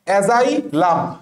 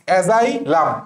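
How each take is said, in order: Both takes have the same delivery.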